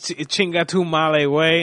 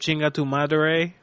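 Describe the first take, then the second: First: The r is dropped, sounding like 'male way'. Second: The r in madre is clearly pronounced. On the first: The speaker calls it wrong. "He's chinga tu male way" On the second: The speaker calls it right. "instead of chinga tu madre"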